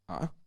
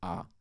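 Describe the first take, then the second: First: The vowel rises with a catch in the throat. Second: The vowel starts low and falls lower. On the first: "glottalized rising" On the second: "a grave accent means um, a low falling tone"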